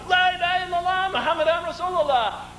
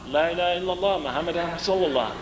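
First: It is shouted loudly and with energy. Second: It is mumbled quietly and without energy. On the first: The group says it with full conviction. "This time we're shouting" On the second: The group says it half-heartedly. "Everybody sort of starts mumbling it out"

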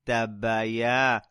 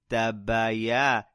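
Both takes have the same delivery.

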